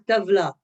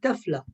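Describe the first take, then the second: First: The middle consonant is a voiced v sound. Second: The middle consonant is a voiceless f sound. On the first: The word intended. The speaker calls it right. "elle voulait dire tavla" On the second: A different word, meaning a beam. The speaker calls it wrong. "elle dit tafla"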